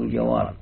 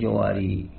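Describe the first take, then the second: First: The word ends on the r sound. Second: The word ends with a long ee sound. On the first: The speaker calls it right. "فإذا وقفت تقف على الراء" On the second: The speaker calls it wrong. "ولا تقول جواري"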